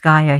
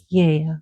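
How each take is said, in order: First: The name is said the local English way. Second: The name is said the Greek way. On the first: "we pronounce Gaia here" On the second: "Yea in Greece"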